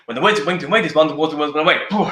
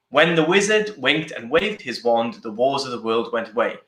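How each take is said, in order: First: It is said at a fast pace. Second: It is said at a slow pace.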